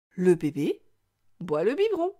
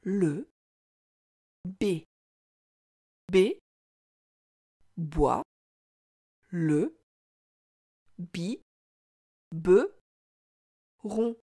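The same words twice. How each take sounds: First: Said in the usual way. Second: "Le B B boit le bi be ron", each syllable alone with long pauses. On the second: Shown as a demonstration. Teacher reads along with child, syllable by syllable. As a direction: read it out very slowly, one separate beat per syllable. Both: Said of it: "Essaie de lire cette phrase avec moi".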